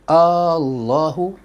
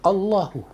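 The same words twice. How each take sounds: First: The first vowel is drawn out long. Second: The first vowel is kept short. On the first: It turns into a question. The speaker calls it wrong. "Tak boleh kita panjang Allahu" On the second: It stays a statement. The speaker calls it right. "Jangan panjangkan huruf hamzah tu"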